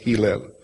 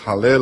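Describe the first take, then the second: First: The first vowel is an 'i' sound. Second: The first vowel is an 'a' sound. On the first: Other people pronounce it this way. "alții pronunță Hillel" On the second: Some people pronounce it this way. "Unii pronunță Halel"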